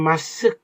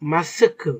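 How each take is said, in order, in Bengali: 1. শব্দটি k ধ্বনিতে হঠাৎ করে শেষ হয়। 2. k-এর পরে একটি খুব ছোট, মৃদু u ধ্বনি থাকে। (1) "ওইভাবে আমরা মাস্ক না বলে" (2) "কোরিয়ান ভাষায় মাস্ক ... এভাবে বলা হয়"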